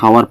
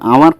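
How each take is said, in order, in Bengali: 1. শব্দটি একটি h ধ্বনি দিয়ে শুরু হয়। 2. এই শব্দটি স্বরধ্বনি দিয়ে শুরু হয়, এখানে h নেই।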